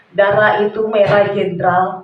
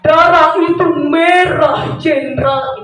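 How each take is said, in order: First: The voice is plain and resonates in the chest. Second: The voice is pushed from deep in the belly. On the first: "itu dada" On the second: "itu perut"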